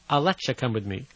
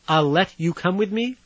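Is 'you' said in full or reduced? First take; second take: reduced; full. First: 'Let you' is reduced to sound like 'letcha'. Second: 'You' is said in full, separate from 'let'.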